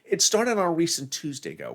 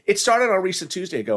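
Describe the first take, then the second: First: It is said slowly and deliberately. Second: It is said at normal speed.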